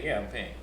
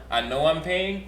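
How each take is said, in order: First: Lower, softer offhand yes; casual yeah. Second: Said in the usual way. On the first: Retold or imitated. Boyfriend answering girlfriend at dinner, casual and soft. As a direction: toss it off like a matter of course. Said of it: "or do you say". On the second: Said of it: "Do you respond".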